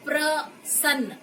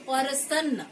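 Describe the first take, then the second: First: It begins with the joined cluster 'pra'. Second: It begins with a separate 'pa' before 'ra'. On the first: The speaker calls it right. "यहाँ पर हमने कहा प्र" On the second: The speaker calls it wrong. "तो वो गलत हो"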